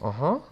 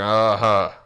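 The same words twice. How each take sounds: First: It sounds curious and eager to hear more. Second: It sounds distant and dismissive. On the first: The listener is open to the advice. The speaker calls it right. "like interesting. Tell me more" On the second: The listener is closed to the advice. The speaker calls it wrong. "like they're standoffish"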